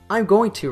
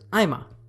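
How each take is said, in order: First: Every syllable of the phrase is said in full. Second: The phrase shrinks to 'I'm' plus a single vowel. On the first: "I'm going to reduces to" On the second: "the third level connected speech reduction here is I'm a"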